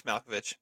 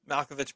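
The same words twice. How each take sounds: First: Said in the usual way. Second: Name said through a laugh, quick. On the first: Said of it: "said again plainly". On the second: Real, not acted. Cohost repeating Malkovich's name, laughing. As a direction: chuckle out the name. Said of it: "repeating the name laughing".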